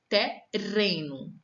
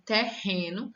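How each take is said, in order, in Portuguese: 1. O r do meio é um som leve, de tepe. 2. O r do meio é um som gutural forte. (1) "Se eu esquecer de colocar um R, as coisas mudam" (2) "Ao invés de terreno"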